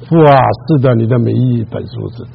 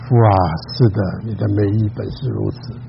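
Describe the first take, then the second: First: It is spoken in a louder voice. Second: It is spoken in a very quiet voice. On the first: "我就大声一点" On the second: "太小声了"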